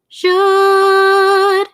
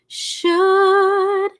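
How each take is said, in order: First: It starts with a buzzing, voiced zh sound. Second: It starts with a breathy, voiceless sh sound. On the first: "We'll modify that to a little bit of a zh sound" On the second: "the sh sound is a soft consonant. There's a lot of airflow, and it's also unvoiced"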